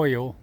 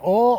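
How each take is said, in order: First: "oil" with a full oy glide. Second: "oil" said as one syllable, "awl". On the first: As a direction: stretch "oil" into "oy-ul". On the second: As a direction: drop the glide in "oil", making it "awl". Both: Shown as a demonstration. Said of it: "Is it oil or oil?".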